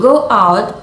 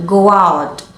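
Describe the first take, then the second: First: "go" and "out" said as separate words; clear break between words. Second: "go out" joined as "go-wout"; linked words. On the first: Teacher showing unlinked speech, clear break in "go out". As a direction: keep "go out" unlinked, a break after "go". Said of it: "with a clear break between the words". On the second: Teacher showing linking, "go out" run together as one word. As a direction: glide from "go" straight into "out". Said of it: "we link them together". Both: Shown as a demonstration.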